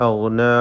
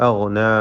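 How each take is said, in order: The two takes are said the same way.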